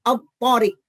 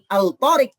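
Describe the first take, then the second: First: The l merges into a doubled t. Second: The l is clearly pronounced before the t. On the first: The speaker calls it right. "tapi al-tariq. Lamnya hilang hurufnya" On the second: The speaker calls it wrong. "bukan al-tariq"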